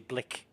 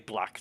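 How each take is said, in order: First: The vowel is a short 'i' sound. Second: The vowel is an open 'a' sound. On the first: "they say blick. So it's got it's it's not an A, it's an I"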